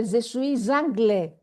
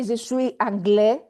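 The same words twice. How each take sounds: First: "Je suis anglais" linked as sui-ZANGLE, slowly; liaison with z. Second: "je suis anglais" said unlinked, s silent; no liaison. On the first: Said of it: "I didn't say je suis anglais". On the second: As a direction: say "suis anglais" apart as the wrong form. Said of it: "I didn't say". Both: Shown as a demonstration.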